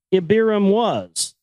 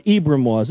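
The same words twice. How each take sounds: First: Ibiram read with an extra middle syllable, ee-bee-ram; misread name. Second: Ibram said as two syllables, EE-bram; corrected name. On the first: Host misreading the patriarch's name, slow misreading. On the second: Host correcting his own misreading, plain correction. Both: Real, not acted. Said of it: "I'm sorry, Ibram was".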